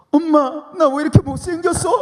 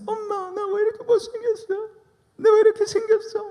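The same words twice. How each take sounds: First: Put-on much higher, louder wailing girl; mock-wail like a weepy teen sister; crying teenage sister. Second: Very high falsetto sob-whine; mock crying sister. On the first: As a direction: sister imitated with a high tearful whine. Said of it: "눈물을 막 흘리면서". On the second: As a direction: ham up a weeping teenage girl. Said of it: "닭똥 같은 눈물을 툭툭 흘리면서".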